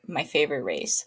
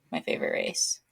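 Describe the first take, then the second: First: Said in the usual way. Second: Breathy whisper, voice dropped away; whispered aside. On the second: Shown as a demonstration. Repeating her race in a bitter whisper.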